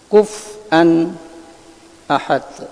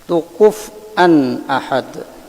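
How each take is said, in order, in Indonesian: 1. Ada jeda singkat sebelum hamzah. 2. Bunyinya tersambung tanpa jeda. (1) "ba saktah" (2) "Baca bersambung"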